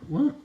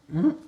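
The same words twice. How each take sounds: The two takes are said the same way.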